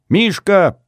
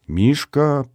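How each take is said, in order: First: High, loud shout of a name; yelled call. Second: Said in the usual way. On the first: A narrator's reading. Izya yells for Mishka from out of sight, shouting. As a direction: call out sharply to a friend. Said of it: "заорал невидимый мне Изя". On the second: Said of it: "проговорила Рита, глядя на меня".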